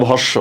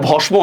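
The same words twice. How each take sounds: First: ভস্য as bhosh-sho, no m; correct pronunciation. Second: ভস্ম with the ম sounded; wrong pronunciation. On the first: Teacher giving students the correct reading, ভস্য with doubled sh. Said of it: "এটা ভস্য". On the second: Teacher rejecting a misreading for students, ভস্ম with m pronounced. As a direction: say ভস্ম with an audible m after the sh. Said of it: "এটা ভস্ম না". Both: Shown as a demonstration.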